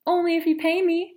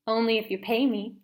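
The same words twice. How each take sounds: First: High, loud repeat of only if you pay me; louder repeat. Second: Said in the usual way. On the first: Acted. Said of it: "Mom asked what?". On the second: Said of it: "first take".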